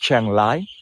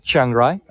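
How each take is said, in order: First: The second word starts with an L sound. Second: The second word starts with an R sound. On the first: The speaker calls it right. "we say like the L" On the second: The speaker calls it wrong. "not with the R"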